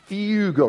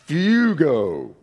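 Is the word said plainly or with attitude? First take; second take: plain; attitude. First: The word is said plainly, without attitude. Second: The word is said forcefully, with attitude. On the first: "Say that word with me" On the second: "Now say it with an attitude"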